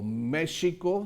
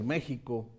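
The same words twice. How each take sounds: First: The middle consonant is a soft sh sound. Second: The middle consonant is a throaty j sound. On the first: This is the old Castilian pronunciation. "se oía como sh" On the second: This is the modern pronunciation. "después pasó a ser México"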